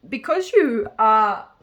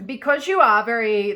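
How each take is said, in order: First: Words pushed out through a burp; talking through a coffee burp. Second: Said in the usual way. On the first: Real, not acted. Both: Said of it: "I'm burping from my coffee".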